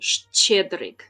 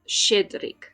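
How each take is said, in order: First: The word begins with a longer shch sound. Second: The word begins with a plain sh sound. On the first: "but actually" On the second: "I'm just gonna pronounce it with a sh"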